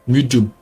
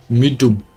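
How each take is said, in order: Both takes have the same delivery.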